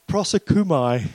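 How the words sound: It is said firmly, like a statement. The speaker is sure of the word.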